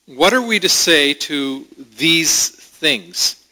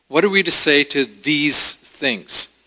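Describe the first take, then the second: First: "What are we to say to these things?" read slowly, rising on "are"; slow reading of the text. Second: Said in the usual way. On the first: Shown as a demonstration. Preacher reading scripture slowly to the congregation, rising on "are". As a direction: read the verse slowly with a questioning rise. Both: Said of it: "It starts out by saying".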